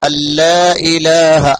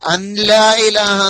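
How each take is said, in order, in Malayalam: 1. നൂൻ ശബ്ദമില്ല; ലാം ഇരട്ടിക്കുന്നു. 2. ലാമിന് മുമ്പ് ഒരു നൂൻ ശബ്ദം കേൾക്കുന്നു.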